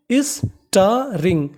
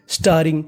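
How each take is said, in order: First: starring drawn out very slowly, sta-ring; slow syllable-by-syllable. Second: Said in the usual way. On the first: Shown as a demonstration. Teacher sounding out a vocabulary word, very slow. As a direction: stretch starring so students catch each sound. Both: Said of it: "तो meaning बनी".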